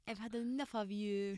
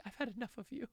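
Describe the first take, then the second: First: Quiet British accent, a bit higher; British accent on request. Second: Prompted British line. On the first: Asked by host to do British, fed-up British accent. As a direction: say it as a fed-up Brit breaking up. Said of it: "Can you do British or can you do French?". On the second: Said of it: "can you do British or can you do French". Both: Shown as a demonstration.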